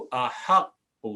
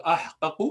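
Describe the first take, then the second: First: احق as a-HAQ-qu, the q held double; teacher demonstrating contracted احق, a-haq-qu; merged doubled qaf. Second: احقق with both qafs apart, ah-qa-qu; teacher demonstrating احقق with two separate q sounds; original unmerged form. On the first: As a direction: join the qafs in احق, vowel moved onto the h. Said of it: "پہلا والا قاف silent کریں گے". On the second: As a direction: say احقق uncontracted, closing on ah before qa-qu. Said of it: "اصل میں تھا احقق". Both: Shown as a demonstration.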